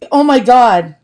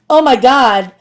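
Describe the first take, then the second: First: It is said in a natural voice. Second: It is said in a Valley girl voice.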